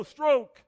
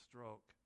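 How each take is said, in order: First: Loud, high coxswain bark; barking stroke command. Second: Soft, low, spent coxswain call; weary quiet stroke call. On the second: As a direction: murmur the count, worn out. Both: Acted. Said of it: "the role of the coxswain".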